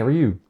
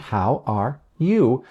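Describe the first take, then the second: First: It is quick and casual, hard to hear. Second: It is clear with exaggerated intonation. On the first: It is said to a peer. "I probably just say, hey, how are you? ... it can be hard to hear" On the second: It is said to a learner. "It's going to come out a little differently"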